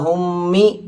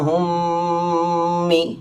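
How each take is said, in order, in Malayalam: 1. 'm' ഹ്രസ്വമാണ്, നീട്ടിപ്പിടിച്ച ഹം ഇല്ല. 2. 'm' മൂക്കൊലിയോടെ നീട്ടിപ്പിടിക്കുന്നു. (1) "ഹുമ്മി എന്ന് പറഞ്ഞു പോകുന്നതിന് പകരം" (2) "ഇതാണ് മണിക്കുക എന്ന് പറഞ്ഞാൽ"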